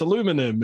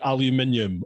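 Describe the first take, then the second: First: It is said with an American pronunciation. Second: It is said with a British pronunciation. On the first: "they go, no, no, that's not how you say it. It's aluminum" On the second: "how we say aluminium"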